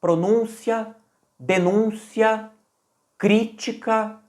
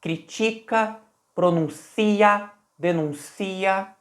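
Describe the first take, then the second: First: Pronúncia, denúncia, crítica with stress early; pronúncia denúncia crítica, weight on Ú and Í; stress earlier. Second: Critica, pronuncia, denuncia slow, with late stress; stress at the end. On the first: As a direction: stress each word early. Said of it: "com a ênfase um pouco antes". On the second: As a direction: push the stress toward the end. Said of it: "com a ênfase mais no final". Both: Shown as a demonstration.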